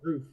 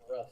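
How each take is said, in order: First: The vowel is long, like 'roof'. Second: The vowel is short, like 'rough'. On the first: This is how the speaker's group says it. "we say roof" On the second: This is how the other group says it. "not rough"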